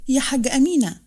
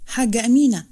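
First: يا حاجة أمينة called again, a bit less loud, falling on أمينة; strong voice, repeated. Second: Louder call of حاجة أمينة, the name أمينة raised and falling; strong voice. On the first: Farah calls Amina a second time, firm. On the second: Farah calls Amina out in the hall, loud. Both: Acted. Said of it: "وقالت بصوت قوي".

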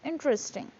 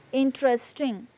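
First: "interesting" shortened to IN-tres-ting; reduced syllables. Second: "Interesting" sounded out fully, IN-te-res-ting; every syllable pronounced. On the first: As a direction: drop the second E in "interesting". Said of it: "It's interesting". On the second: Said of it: "We won't pronounce all the syllables". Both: Shown as a demonstration.

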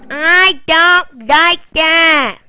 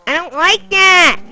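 First: Slow, stretched, louder whine; drawn-out repeat. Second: Louder, higher whiny protest; loud complaint. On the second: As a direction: complain out loud, half laughing at the pet. Complaining about pet. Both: Real, not acted.

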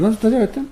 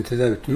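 First: "tedavi" jumps much higher, mock disbelief; hammed-up doctor who can't believe it; astonished doctor. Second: Said in the usual way. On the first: Doctor asks how he cured it. ("tedavi" kelimesi çok tiz, abartılı şaşkınlık)

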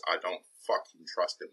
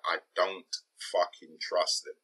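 First: "fucking" leaned on, with a firm falling end; emphatic "fucking", said deliberately; swearing for emphasis. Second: Said in the usual way. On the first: Shown as a demonstration. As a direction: land hard on "fucking" and drop the line. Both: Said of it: "Back to swearing for emphasis".

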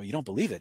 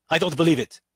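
First: Soft, calm echo of his words. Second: Mock irate retort, a bit louder; irate objection. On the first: Shown as a demonstration. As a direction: mirror his words back quietly. Echoing the man's words back. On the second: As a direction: play the angry skeptic in the audience. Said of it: "He's irate".

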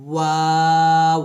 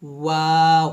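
First: ওয়াও drawn out very slowly with round lips; slow round-lipped ওয়াও, louder; rounded waw. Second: ওয়াও said short with lips rounded; a shorter round-lipped ওয়াও; brief ওয়াও, lips round; quick waw. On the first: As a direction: hold ওয়াও long, lips fully rounded. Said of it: "আমরা দুই ঠোঁট গোল করে উচ্চারণ করি". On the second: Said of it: "প্রথম ঠোঁট গোল হয় এবং শেষ ঠোঁট গোল হয়". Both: Shown as a demonstration.

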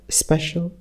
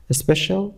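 First: "اسپشال" said as "special"; pronunciation without initial E. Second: "اسپشال" said as "especial"; pronunciation with initial E. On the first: Teacher showing students the second form of "اسپشال", special without initial E. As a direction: say "اسپشال" as the shorter word, special. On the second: Teacher showing students the first form of "اسپشال", especial with initial E. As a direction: say "اسپشال" with an opening E vowel, especial. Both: Shown as a demonstration.

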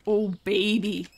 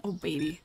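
First: Savoring delight. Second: Said in the usual way. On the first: Real, not acted.

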